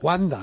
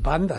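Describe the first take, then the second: First: The name begins with a W sound. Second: The name begins with a B sound. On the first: The speaker calls it right. "es Wanda" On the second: The speaker calls it wrong. "no es Banda"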